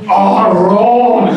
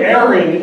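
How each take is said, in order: First: The name is said with a Spanish accent. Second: The name is said with a plain American accent. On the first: "my name alone is so much cooler in Spanish" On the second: "Instead of Aaron"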